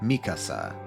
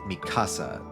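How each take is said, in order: First: The stress is on the first syllable. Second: The stress is on the second syllable. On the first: It follows the original Japanese pronunciation. "I'm kind of stressing the first syllable" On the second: It follows the English dub's pronunciation. "They stress the second syllable"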